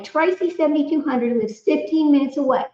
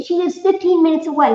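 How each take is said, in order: First: Said in the usual way. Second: Thrilled, higher, leaning on fifteen; amazed that she lives so close; excited. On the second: Acted. Excited take of chat comment.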